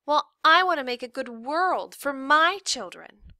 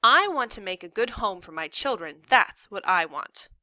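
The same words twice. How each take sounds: First: Put-on high, loud kid throwing words back; one-up mom in a child's voice; defiant girl, stressing I and MY; retorting daughter. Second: Lightly voiced exasperated mom, stressing I; a hint of stern mom; firm mother. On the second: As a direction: lay down the law in the usual register. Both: A narrator's reading.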